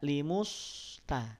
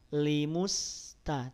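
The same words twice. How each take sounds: First: The lips stay rounded through the s sound. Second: The lips relax right after the m sound. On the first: The speaker calls it wrong. "tidak limusta ... Kalau tetap dipertahankan monyongnya" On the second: The speaker calls it right. "setelah memonyongkan mim langsung balikin lagi"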